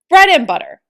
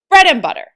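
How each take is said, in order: First: The word bread carries the strongest stress. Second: The same.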